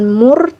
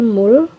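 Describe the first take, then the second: First: The word ends with an R sound. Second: The word ends with an L sound. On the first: The speaker calls it wrong. "bukan mur" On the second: The speaker calls it right. "tapi mul"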